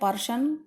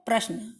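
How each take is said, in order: First: A vowel splits the p and r sounds. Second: The p and r sounds form one tight cluster. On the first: The speaker calls it wrong. "कुछ लोग बोलते हैं पर्शन" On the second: The speaker calls it right. "जैसे आपका शब्द क्या है"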